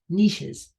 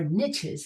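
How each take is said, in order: First: The word uses a non-North American pronunciation. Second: The word uses the North American pronunciation.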